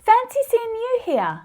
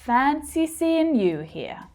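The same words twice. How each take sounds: First: The pitch stays high with excited surprise. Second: The tone is sarcastic rather than excited. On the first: The meeting was genuinely unexpected. "Hear how the pitch stays high?" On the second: The meeting is no surprise at all. "in the sarcastic version"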